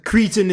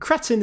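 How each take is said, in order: First: The word has an American English pronunciation. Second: The word has a British English pronunciation. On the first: "cretin is American English" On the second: "cretin is British English"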